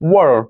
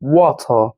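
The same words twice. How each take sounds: First: It is said with an American accent. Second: It is said with a British accent. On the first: "American English में बोलते हैं वाटर" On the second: "British में कैसे बोलते हैं?"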